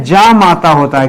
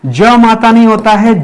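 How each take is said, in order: First: जा माता said with a long जा; correct form shown. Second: ज माता said with a short ज; wrong form shown. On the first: Teacher giving students the correct form जा माता. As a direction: stretch the आ in जा माता. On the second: Teacher showing students the misspelt ज माता. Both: Shown as a demonstration.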